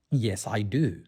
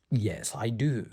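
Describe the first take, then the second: No difference in how they are said.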